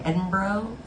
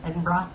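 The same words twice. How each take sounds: First: Edinburgh ending in a long "broh", questioning; unsure pronunciation. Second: Edinburgh ending in an open "brah"; second-try pronunciation. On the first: Trying the city's name for a Scottish viewer, Edinburgh said "ED-in-broh". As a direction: say Edinburgh as "ED-in-broh", with a rising query. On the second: Correcting the city's name for a Scottish viewer, Edinburgh said "ED-in-brah". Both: Shown as a demonstration. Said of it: "I always say it wrong".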